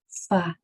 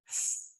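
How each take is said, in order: First: A vowel sound follows the consonant. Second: Only the consonant with air, no vowel. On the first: The speaker calls it wrong. "Did you hear all of those uhs at the end?" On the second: The speaker calls it right. "did you notice that there was only air that came out?"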